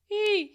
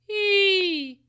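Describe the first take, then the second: First: The vowel is soft with audible breathiness. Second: The vowel is sharp, pressed and scolding. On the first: "with that breathiness so you can feel it" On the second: "more of that scolding sound"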